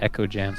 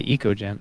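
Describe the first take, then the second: First: The first word sounds like 'echo'. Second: The first word does not sound like 'echo'. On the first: The name suggests an echoing sound. "I've always said echo jams because it sounds echoey" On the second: This is how the other person says it. "You say eco jams"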